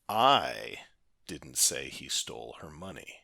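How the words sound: The stress falls on the word I. Someone else said it, not me. "put the emphasis on the first word, that being the letter I"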